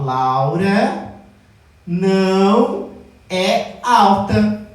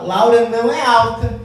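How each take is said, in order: First: "Laura ... não ... é alta" said slowly with pauses before and after "não"; pauses between words. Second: Said in the usual way. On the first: Shown as a demonstration. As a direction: spell it out word by word, slowly. (pausado, destacando o "não") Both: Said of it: "Então, olha só".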